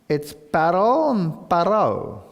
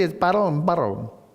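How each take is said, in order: First: The names are said slowly and distinctly. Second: The names are said quickly, running together.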